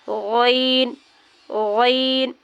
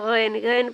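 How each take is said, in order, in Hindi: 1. यह शब्द भारी बोला जाता है, मुँह भरकर। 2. यह शब्द पतला बोला जाता है, मुँह भरकर नहीं। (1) "मुंह भर के" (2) "गलत है"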